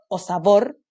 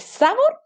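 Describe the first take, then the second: First: "sabor" said as sa-BOR; stress on last syllable. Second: "sabor" said as SA-bor; wrong stress, first syllable. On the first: Teacher offers children the right option, "sabor" stressed on BOR. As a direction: put the weight on BOR in "sabor". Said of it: "última". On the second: Teacher asks children which is right, "sabor" stressed on SA. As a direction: move the weight onto SA in "sabor". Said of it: "¿Es sabor o sabor?". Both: Shown as a demonstration.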